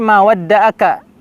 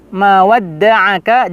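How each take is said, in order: First: The 'ain' is weak, without the throat sound. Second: The 'ain' comes strongly from deep in the throat. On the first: The speaker calls it wrong. "jangan sampai" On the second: The speaker calls it right. "yang mana kita mengoptimalkan di tenggorokan kita"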